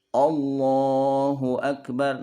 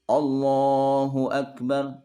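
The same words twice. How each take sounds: First: The first vowel is coloured toward o. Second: The same.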